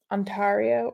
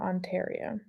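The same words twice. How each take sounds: First: Ontario with a broad "ah" in the middle; mistaken pronunciation. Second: Ontario with an "air" sound in the middle; usual pronunciation. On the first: Host trying out a viewer's province name, mispronounced Ontario as on-TAR-ee-oh. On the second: Host checking a viewer's province name, Ontario pronounced on-TAIR-ee-oh. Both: Shown as a demonstration. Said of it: "I always say it wrong".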